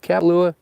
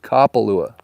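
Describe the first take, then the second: First: The first syllable does not sound like 'cop'. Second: The first syllable sounds like 'cop'. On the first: The speaker calls it wrong. "It's not Kapalua" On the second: The speaker calls it right. "Just think of it like a cop getting ready to arrest you"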